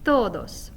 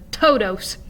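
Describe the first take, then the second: First: The T is soft, with the tongue on the teeth. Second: The T is hard, with a strong puff of air. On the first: The speaker calls it right. "produces a softer sound" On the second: The speaker calls it wrong. "rather than"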